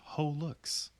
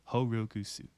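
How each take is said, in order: First: The name is said with English-style sounds. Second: The name is said with Japanese-style sounds. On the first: The speaker calls it wrong. "this is technically incorrect" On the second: The speaker calls it right. "It is pronounced with a Japanese inflection"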